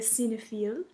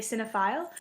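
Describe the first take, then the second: First: It is said with a French pronunciation. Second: It is said with an English pronunciation.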